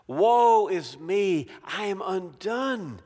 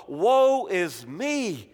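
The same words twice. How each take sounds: First: Slow, stretched woe that drops away; slow lament. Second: A slow, stretched woe; drawn-out lament. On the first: Preacher voicing Isaiah's slow broken lament. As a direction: wail it slowly then let it sink. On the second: Preacher voicing Isaiah's slow lament. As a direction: mourn the words slowly. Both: Acted. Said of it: "he says".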